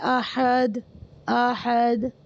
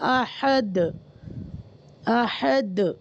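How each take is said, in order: First: The final d stops flat with no echo. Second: The final d bounces with a slight echo. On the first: The speaker calls it wrong. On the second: The speaker calls it right.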